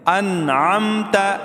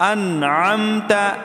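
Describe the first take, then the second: The two takes are said the same way.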